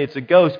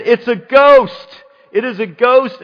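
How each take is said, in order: First: Said in the usual way. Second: Terrified cry. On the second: Acted. Preacher playing disciples who see Jesus on the sea, terrified. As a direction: cry out in acted terror. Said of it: "they cried out in fear".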